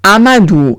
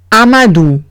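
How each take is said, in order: First: Amadou with ou as u; name Amadou, modelled again; French Amadou again. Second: Amadou with ou as u; name Amadou, French way. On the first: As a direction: repeat Amadou. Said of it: "O U se pronuncia U". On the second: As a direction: model Amadou. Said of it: "Siguiente palabra es Amadou". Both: Shown as a demonstration.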